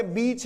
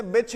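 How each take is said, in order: First: बीच with a drawn-out long ee, slowly. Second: बिच with a short clipped i, slowly. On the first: Teacher contrasts बीच for students, long ee. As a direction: stretch the ee in बीच. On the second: Teacher contrasts बिच for students, short i. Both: Shown as a demonstration. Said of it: "अंतर ही नहीं कर पाते हैं".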